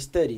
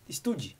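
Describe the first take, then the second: First: It is said with an English pronunciation. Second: It is said as Portuguese spelling would suggest. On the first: The speaker calls it right. "é o certo a se falar" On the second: The speaker calls it wrong. "a gente lê es- estude"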